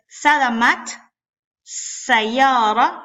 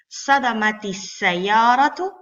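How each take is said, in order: First: Sadamat ends in a bare t, no vowel. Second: Sadamat takes an added i sound before sayara. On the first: The speaker calls it wrong. "no está bien" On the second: The speaker calls it right. "Le pongo una kasra temporal a sadamat"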